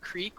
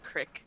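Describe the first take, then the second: First: The vowel is a long ee sound. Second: The vowel is a short i sound. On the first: "instead of creek" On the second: "it's a regional thing from like my state, where instead of creek we say crick"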